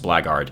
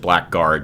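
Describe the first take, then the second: First: The 'ck' sound is silent. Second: The 'ck' sound is pronounced clearly. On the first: The speaker calls it right. "but I do believe it's pronounced blackguard. it's a silent C K" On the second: The speaker calls it wrong. "I know some people pronounce it blackguard"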